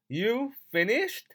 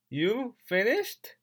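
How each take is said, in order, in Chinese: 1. Have 弱化并与后面连读，语速快。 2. Have 弱化并与后面连读，语速快。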